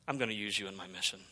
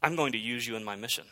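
First: Softer, fast, almost breathed; hushed repeat. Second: Said in the usual way. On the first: Shown as a demonstration. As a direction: let the promise drop to a near hush. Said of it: "repeated line". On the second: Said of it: "repeated softer".

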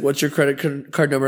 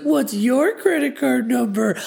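First: Said in the usual way. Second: Put-on high, slow toddler voice echoing him; baby talk. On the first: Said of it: "And he's like". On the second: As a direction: parrot him like a little child. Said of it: "in baby talk".

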